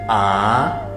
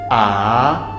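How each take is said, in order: Both takes have the same delivery.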